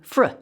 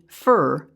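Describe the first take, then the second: First: The R follows the F with no vowel. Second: A vowel sound comes before the R. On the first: The speaker calls it right. "that clipped R sound" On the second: The speaker calls it wrong. "F R would not be fur"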